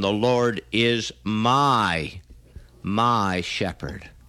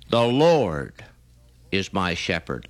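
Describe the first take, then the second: First: The stress falls on the word my. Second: The stress falls on the word Lord.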